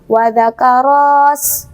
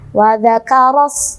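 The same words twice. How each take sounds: First: The vowel after r is drawn out long. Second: The vowel after r is short, pressed into s. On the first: The speaker calls it wrong. "teman-teman membaca panjang dulu ro-nya ... Salah ya" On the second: The speaker calls it right. "dari ro ke sinnya ini, sinnya sin sukun, maka harus ditekan ya"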